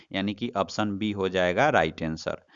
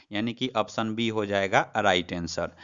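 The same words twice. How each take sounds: Both takes have the same delivery.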